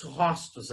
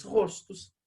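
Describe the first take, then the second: First: Rostos with an open ó, róstos; wrong open vowel. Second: Rostos with a closed ô, rôstos; right closed vowel. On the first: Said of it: "a gente não diz rostos". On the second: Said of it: "a gente diz rostos". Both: Shown as a demonstration. Teacher contrasting wrong and right rostos for students.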